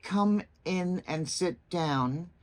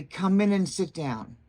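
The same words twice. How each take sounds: First: Slow, separate "Come / in / and / sit / down"; unlinked words. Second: "Come in and sit down" run smoothly together; smooth, connected "Come in and sit down"; linked words. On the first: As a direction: leave gaps between "Come", "in", "and", "sit", "down". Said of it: "instead of saying something like". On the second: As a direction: join "Come in" into one flowing unit. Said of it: "the last part is the linking". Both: Shown as a demonstration.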